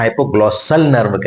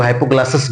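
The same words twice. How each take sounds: First: Hypoglossal, ending clearly in "-sal"; corrected term. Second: Hypoglossous, ending in an "-us" sound; common misnaming. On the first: Teacher correcting students on the nerve's name, hypoglossal ending in "-al". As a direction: say hypoglossal nerve with a distinct final "-al". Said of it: "nerve की बात करेंगे तो hypoglossal nerve कहेंगे". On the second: Teacher quoting students' slip on the nerve's name, hypoglossous ending in "-us". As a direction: say hypoglossous with "-us" in place of "-al". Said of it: "अक्सर लोग hypoglossous बोल देते हैं".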